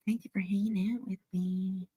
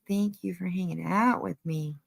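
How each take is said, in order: First: The same thanks again, now a soft whisper. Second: Said in the usual way. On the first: Real, not acted. Whispering thanks to the viewers for hanging out. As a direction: whisper it close, like a secret.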